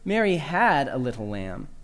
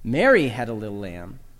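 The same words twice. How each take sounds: First: The word "had" carries the main stress. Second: The word "Mary" carries the main stress. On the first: She no longer has the lamb. "Emphasize the second word" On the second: It was not someone else who had the lamb. "Emphasize the first word"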